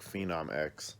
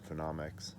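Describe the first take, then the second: First: The name ends with the letter name X. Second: The name ends with a blended "mix" sound. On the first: The speaker calls it wrong. "It looks like Phenom X" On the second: The speaker calls it right. "it's pronounced Phenomics"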